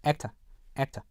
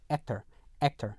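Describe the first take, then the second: First: "actor" ending in plain "uh"; British "actor" with a soft schwa ending. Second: "actor" ending in "er"; American "actor", r-coloured schwa; American final R. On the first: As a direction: say "actor" British-style, dropping the final R. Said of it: "그냥 어, 어 이렇게 발음이 됩니다". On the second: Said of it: "er 요걸로 발음이 되죠". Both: Shown as a demonstration.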